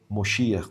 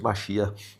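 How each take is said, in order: First: The word is said with Yiddish pronunciation. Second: The word is said with Hebrew pronunciation. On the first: This is how Yiddish speakers say it. "como é dito uh, no, no Yiddish" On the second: This is how Hebrew speakers say it. "que é como a pronúncia no hebraico"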